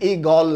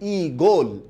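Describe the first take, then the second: First: The second vowel is an open aw sound. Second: The second vowel is a closed o sound. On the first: The speaker calls it wrong. "এটা কিন্তু ই গল না" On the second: The speaker calls it right. "উচ্চারণটা হচ্ছে ই গোল"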